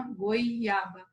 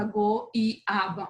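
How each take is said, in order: First: "goiaba" with goi as one syllable; vowels joined. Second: "goiaba" as go, i, aba, o apart from i; wrongly split vowels. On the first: Teacher showing how it is said, "goiaba" with o and i together. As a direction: glide o into i in "goiaba", goi-aba. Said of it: "você fala uma goiaba". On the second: Teacher showing what nobody says, "goiaba" as go-i-aba. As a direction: break "goiaba" between the o and the i. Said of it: "você não fala goiaba". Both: Shown as a demonstration.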